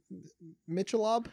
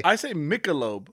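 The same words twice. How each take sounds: First: Michelob said MITCH-uh-lob, hesitant; mispronunciation. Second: Michelob as MIK-uh-lobe, slowly; pronunciation. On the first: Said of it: "You mean Michelob?". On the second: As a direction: say Michelob with a k sound. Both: Shown as a demonstration.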